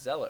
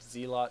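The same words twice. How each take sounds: First: The first syllable sounds like 'zel'. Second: The first syllable sounds like 'zeal'. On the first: The speaker calls it right. "you know it's Zealot, right?" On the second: The speaker calls it wrong. "I apologize for just calling it Zealot"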